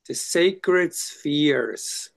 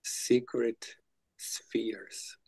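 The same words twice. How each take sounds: First: Sacred stretched long and voiced, each word savored; slow, savoring. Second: "Secret" whispered very slowly with no voice. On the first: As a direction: draw out "sacred" very slowly in full voice. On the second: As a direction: breathe out "Secret spheres" as a slow hush. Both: Shown as a demonstration. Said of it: "Is it sacred or secret?".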